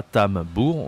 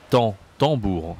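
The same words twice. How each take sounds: First: "tambour" with the M sounded after an oral A, tam-bour; mispronounced tambour. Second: "tambour" with a nasal AN and silent M; correct nasal pronunciation. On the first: Teacher showing learners what not to say, mispronounced "tambour". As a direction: say "tambour" wrongly, pronouncing the M. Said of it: "On ne dit pas tambour". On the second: Teacher correcting the wrong version, nasal-vowel "tambour". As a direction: model "tambour" with the first vowel through the nose, no M. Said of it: "on dit". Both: Shown as a demonstration.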